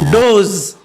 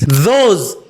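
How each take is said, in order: First: It begins with a sound other than th. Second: It begins with a voiced th sound. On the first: The speaker calls it wrong. "not those" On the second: The speaker calls it right. "Stick your tongue between teeth and vibrate"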